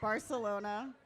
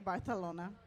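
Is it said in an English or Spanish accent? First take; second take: English; Spanish. First: It is said in an English accent. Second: It is said in a Spanish accent.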